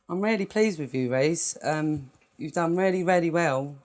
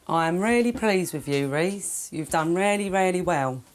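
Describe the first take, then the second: First: It is said in a flat, low voice. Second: It is said in a higher, livelier voice.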